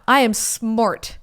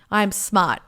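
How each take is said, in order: First: Slow, drawn-out "smart"; mock boast. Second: Said in the usual way. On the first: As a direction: stretch "I am smart" out slowly, playing clever. Self-praise repeated, drawn out for effect.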